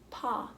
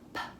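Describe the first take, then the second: First: The p sound is followed by a vowel. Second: The p sound is a bare burst of air. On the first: The speaker calls it wrong. "often sounded out like paw, paw, and that's not right" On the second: The speaker calls it right. "just that little burst of air"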